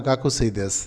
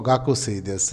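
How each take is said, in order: The two takes are said the same way.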